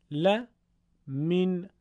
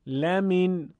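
First: «ل، من» as "la", pause, "min"; segmented reading. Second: «لمن» chanted as one unbroken "lamin"; sung, run la and min together on a held tune; sung, joined reading. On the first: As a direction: split into chanted la and min. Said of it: "به صورت تفکیک شده، یعنی همون بخش بخش". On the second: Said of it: "پیوسته و سرهم تلاوت کنید". (sung, «لمن» پیوسته، لَمِن) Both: Shown as a demonstration.

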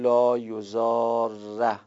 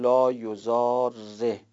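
First: یضاره ending on a short open a, slow and deliberate; fatha ending. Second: یضاره ending on a short e, slow and deliberate; kasra ending. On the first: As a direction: read یضاره with a final fatha, a. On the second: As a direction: read یضاره with a final kasra, e. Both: Shown as a demonstration. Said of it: "یه وجه هم این است که کسره بدیم".

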